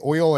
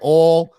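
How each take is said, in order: First: The word has a standard accent. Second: The word has a Southern accent. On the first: This is the way that was required at home. The speaker calls it right. "I had to say oil and iron" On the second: This is the way that was forbidden at home. The speaker calls it wrong. "She wouldn't let me say oil or iron"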